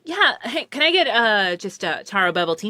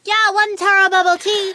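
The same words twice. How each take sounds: First: Said in the usual way. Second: Higher, louder cashier voice with an unusual timbre; lightly voiced barista; mock barista voice. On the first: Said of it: "and I'm like". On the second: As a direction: repeat the order in a striking put-on voice. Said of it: "And like".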